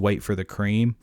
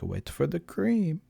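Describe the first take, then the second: First: It is said in a plain voice. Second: It is said in a cartoony French voice.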